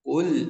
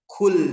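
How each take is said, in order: First: The q is released with the breath held back. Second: The q is released with an audible breath. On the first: The speaker calls it right. "menahan keluarnya nafas. Ul ul ul ul ya" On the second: The speaker calls it wrong. "contoh salah kul kul kul kul. Nah, seakan-akan ada nafasnya ya"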